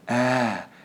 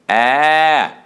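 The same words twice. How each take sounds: First: The vowel is relaxed with air escaping audibly. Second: The vowel starts with firmly closed vocal cords. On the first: The speaker calls it wrong. "relax the vocal cords too much, like this" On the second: The speaker calls it right. "lean on the edge of the ah sound like this"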